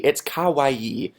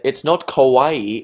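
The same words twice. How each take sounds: First: "kawaii" said as "ka-wa-EE", slowly; corrected kawaii. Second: "kawaii" said as "ko-WAI", slowly; mispronounced kawaii. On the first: Viewer correcting his pronunciation, "kawaii" said properly as "ka-wa-ee". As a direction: open "ka" and drawn-out final "ee" in "kawaii". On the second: Viewer correcting his pronunciation, "kawaii" wrongly said "ko-WAI". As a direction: say "kawaii" with a rounded "ko" at the start. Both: Retold or imitated. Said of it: "someone said".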